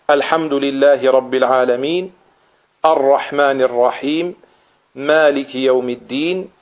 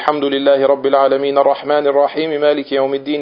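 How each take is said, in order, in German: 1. Nach jedem Vers gibt es eine Pause. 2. Die Verse gehen ohne Pause ineinander über. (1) "Ayah für Ayah liest" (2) "in einem Zug"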